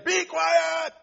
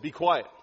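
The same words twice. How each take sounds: First: It is shouted loudly. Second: It is said calmly and firmly.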